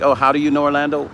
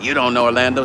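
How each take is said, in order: First: Quick, light and friendly question; friendly curious ask. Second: Dismissive troll line. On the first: Host shows trolls the polite way, friendly. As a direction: ask it like you're curious, not attacking. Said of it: "Wouldn't it be better to ask". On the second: Host mimics the rude troll comment, dismissive. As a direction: throw it out like a know-it-all troll. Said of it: "Instead of". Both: Shown as a demonstration.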